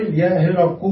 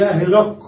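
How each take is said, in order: First: يا هرق closing on a u, يا هرقُ; ending with damma. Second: يا هرق stopped dead on the qaf; ending with sukun. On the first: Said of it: "بالضم". (نطق يا هرقُ بالضم) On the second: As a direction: end يا هرق with no vowel after the qaf. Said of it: "بالسكون". (نطق يا هرقْ بالسكون) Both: Shown as a demonstration.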